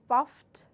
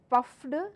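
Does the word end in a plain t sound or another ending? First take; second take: t sound; another ending. First: The ending is a plain t sound. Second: The ending is not a plain t sound. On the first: The speaker calls it right. "Puff would become puffed" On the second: The speaker calls it wrong. "I cannot say puffed"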